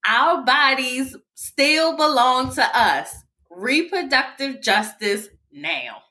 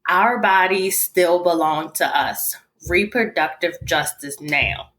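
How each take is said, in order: First: It is read with strong, energetic emphasis. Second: It is read plainly, without extra emphasis.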